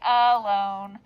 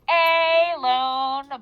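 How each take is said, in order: First: The first vowel is a reduced uh sound. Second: The first vowel is a full, clear vowel. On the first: This is how the word is actually spoken. "but we say alone" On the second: This is how the spelling is thought of. "We have to think alone"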